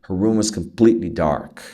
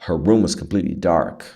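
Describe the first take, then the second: Both takes have the same delivery.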